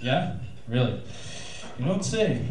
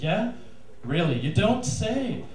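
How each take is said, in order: First: It sounds flat and uninterested. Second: It sounds eager and interested. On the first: The man no longer cares what she says. "after sex" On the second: The man wants to win the woman over. "before sex"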